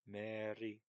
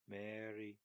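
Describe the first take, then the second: Both takes have the same delivery.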